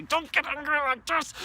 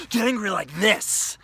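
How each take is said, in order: First: Timid anger. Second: High and loud, letting rage out; loud open anger; full anger. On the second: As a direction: show how to really get angry. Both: Shown as a demonstration.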